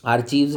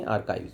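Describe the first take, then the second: First: आर्चीव्स said with a ch sound as ar-cheeves; wrong pronunciation. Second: आर्काइव्स said with a k sound as ar-kives; correct pronunciation. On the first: Teacher showing students the wrong ar-cheeves pronunciation. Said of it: "आर्चीव्स नहीं बोलेंगे". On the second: Teacher giving students the right ar-kives pronunciation. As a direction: say आर्काइव्स as ar-kives, hard k and long i. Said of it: "आर्काइव्स बोलेंगे". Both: Shown as a demonstration.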